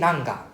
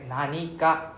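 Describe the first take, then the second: First: The word is shortened to nan. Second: The word is said in full as nani. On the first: The speaker calls it wrong. "we don't say nanga" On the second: The speaker calls it right. "Realize how it's nani ga at this time"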